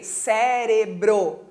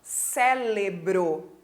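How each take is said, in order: First: Cérebro slowly, clear r in ce-re-bro; slow careful cérebro with the r; correct cérebro. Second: Cérebro said as célebro, l for r; wrong cérebro. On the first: Teacher modelling the right pronunciation. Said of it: "Que é com R". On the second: Teacher imitating the common mistake. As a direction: swap the r for an l in cérebro. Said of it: "Muitas pessoas falam". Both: Shown as a demonstration.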